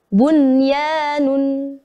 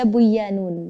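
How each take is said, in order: First: The n before the y is clearly pronounced. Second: The n before the y is merged away. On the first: The speaker calls it right. "Dibaca jelas" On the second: The speaker calls it wrong. "Jangan sampai dibaca buyanun"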